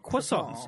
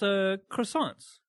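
First: The word is said in a fancy, affected way. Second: The word is said in a plain, everyday way.

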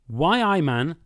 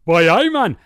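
First: It is spoken in a neutral accent. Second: It is spoken in a Geordie accent. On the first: "It'll be" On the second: "It'll sound like this"

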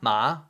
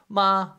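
First: It is said with the second tone. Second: It is said with the first tone.

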